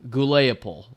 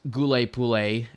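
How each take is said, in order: First: The name ends with an '-opol' sound. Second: The name ends with a '-pole' sound. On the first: The speaker calls it wrong. "as I incorrectly pronounced" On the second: The speaker calls it right. "it is Gule-Pule"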